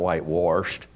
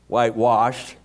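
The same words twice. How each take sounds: First: The word 'wash' is said with an R sound. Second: The word 'wash' is said without an R sound. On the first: The speaker calls it wrong. "It's not whitewashed. There's no R in wash" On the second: The speaker calls it right. "There's no R in wash"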